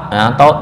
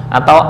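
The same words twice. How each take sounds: The two takes are said the same way.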